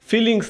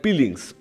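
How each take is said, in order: First: The word begins with an f sound. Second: The word begins with a p sound. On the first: "ফিলিংস না" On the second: "উচ্চারণে ভুল"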